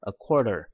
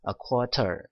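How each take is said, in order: First: The t is softened into a quick flap. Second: The t is pronounced as a clear t. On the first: "t 발음을 연음을 시켜서" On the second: "그냥 a quarter 이렇게 발음을 하셔도 됩니다"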